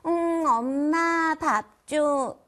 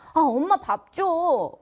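First: It is said in a cute, coaxing tone. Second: It is said in an angry tone.

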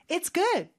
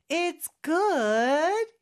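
First: The voice falls at the end. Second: The voice rises at the end.

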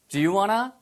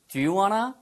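Both takes have the same delivery.

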